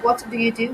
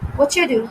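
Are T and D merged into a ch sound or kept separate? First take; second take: separate; merged. First: The T and D are said separately. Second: The T and D merge into a ch sound. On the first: "Instead of saying" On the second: "there is the sound chew which appears in the middle"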